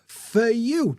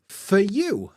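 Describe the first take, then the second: The two takes are said the same way.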